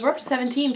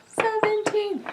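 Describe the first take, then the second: First: Said in the usual way. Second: Much higher, thrilled repeat of the number; excited squeal. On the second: Real, not acted. Proudly telling her viewers her subscriber count, thrilled and high.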